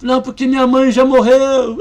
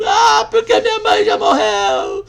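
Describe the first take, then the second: First: Loud, rising distress; the woman's loud first protest; upset cry. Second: Much higher, loud, sobbing wail; a grieving woman's howl over her dead mother; wailing shout. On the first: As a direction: start to lose control. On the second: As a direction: cry it out in full despair. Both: Retold or imitated. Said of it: "quase começou a espernear".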